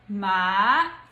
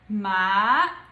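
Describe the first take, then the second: First: It is said in the second tone. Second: It is said in the second tone.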